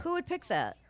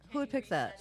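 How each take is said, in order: First: Incredulous. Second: Said in the usual way. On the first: Retold or imitated. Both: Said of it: "repeated rhetorical question".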